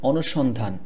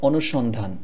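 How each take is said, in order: The two takes are said the same way.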